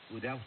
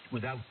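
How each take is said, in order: Both takes have the same delivery.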